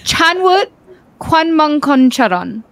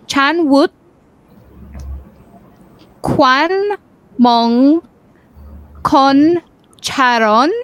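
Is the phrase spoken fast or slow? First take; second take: fast; slow. First: The phrase is spoken quickly. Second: The phrase is spoken very slowly. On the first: "Can you try the faster one?" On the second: "I'm going to go really slow"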